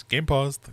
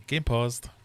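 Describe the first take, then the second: First: Louder, clipped announcer; game announcer voice. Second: Said in the usual way. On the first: Retold or imitated. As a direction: quote the game's announcer. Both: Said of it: "What is it he says?".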